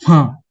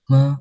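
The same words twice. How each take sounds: First: The pitch falls sharply from high to low. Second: The pitch dips low and then rises again. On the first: It means to scold. "Nada keempat itu nada jatuh" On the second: It means horse. "mobil sedang turun, lamban, lalu naik lagi"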